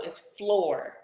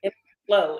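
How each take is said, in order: First: "floor" with its R sounded; "floor" ending on a full R sound; pronounced final R. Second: "flow" for floor, no R; R-less "flow"; dropped final R. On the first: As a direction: correct it to "floor", closing on a clear R. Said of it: "It's flow, it's floor". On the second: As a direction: say "flow" open-ended, leaving off the R. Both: Retold or imitated.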